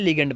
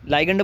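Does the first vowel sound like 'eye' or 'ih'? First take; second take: ih; eye. First: The first vowel sounds like 'ih'. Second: The first vowel sounds like 'eye'. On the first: "pronunciation आपकी मर्जी है" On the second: "लाइगेंड बोलो या लिगेंड बोलो"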